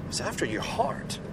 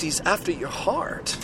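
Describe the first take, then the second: First: He's after your heart, much softer, almost under the breath; hushed repeat. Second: Said in the usual way. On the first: Real, not acted. Preacher softly to his listeners, hushed. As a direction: drop right down and let it land.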